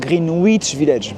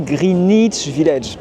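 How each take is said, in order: First: The w in Greenwich is pronounced. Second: The w in Greenwich is silent. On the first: The speaker calls it wrong. "pas Greenwich Village, même si j'ai un W" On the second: The speaker calls it right. "Je dis Greenwich Village"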